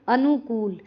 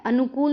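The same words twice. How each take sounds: First: अनुकूल with long falling kool; correct long vowel. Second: अनुकूल as अनुकुल, short last u; mistaken vowel length. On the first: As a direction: draw out the last vowel of अनुकूल. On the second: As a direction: keep the koo of अनुकूल brief. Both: Shown as a demonstration. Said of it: "अनुकूल नहीं".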